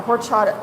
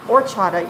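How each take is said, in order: First: Horchata with a hard H sound at the start; wrong pronunciation. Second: Horchata with no H, starting on the vowel or; silent H. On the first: Mom explains her old horchata with the H. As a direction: says horchata with the H the way she used to. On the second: Mom corrects herself on horchata, silent H. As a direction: says horchata dropping the H as she learned. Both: Shown as a demonstration. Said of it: "you don't say the H".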